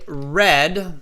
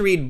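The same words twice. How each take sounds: First: The vowel is short, like 'red'. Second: The vowel is long, like 'reed'. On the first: It happened in the past. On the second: It is happening in general now.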